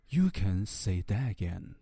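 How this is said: It is said in a light, calm, casual tone. The speaker calls it right. "而是一种风云清淡的描述。"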